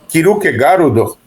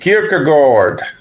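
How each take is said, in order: First: It is said with added vowels, Japanese style. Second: It is said with an American English accent. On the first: "no Japão o pessoal chama de" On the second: "nos Estados Unidos chamam de"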